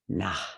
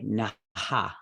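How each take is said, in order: First: It ends in a breath with no repeated vowel. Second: The vowel repeats after the breath at the end. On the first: This is how people recite it. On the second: Nobody recites it this way.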